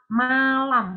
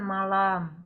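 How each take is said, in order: First: The word is articulated clearly and fully. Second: The word is articulated loosely and unclearly. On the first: The speaker calls it right. "Artikulasi suaranya harus jelas" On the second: The speaker calls it wrong.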